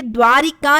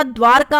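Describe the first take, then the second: First: द्वारिका with ri in the middle; three syllables, dvaa-ri-kaa, in द्वारिका; wrong form. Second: द्वारका as dvaar-kaa; no i after r in द्वारका; correct form. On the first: Teacher showing the extra vowel, द्वारिका with an added i. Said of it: "द्वारिका नहीं होता". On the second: Teacher correcting students, द्वारका with r straight into kaa. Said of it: "द्वारका होता है". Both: Shown as a demonstration.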